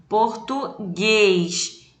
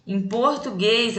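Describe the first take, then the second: First: Slow português with the last syllable, gues, stretched and stressed. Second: Said in the usual way. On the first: Shown as a demonstration. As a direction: drag out português, leaning hard on gues. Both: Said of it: "a sílaba mais forte é a última".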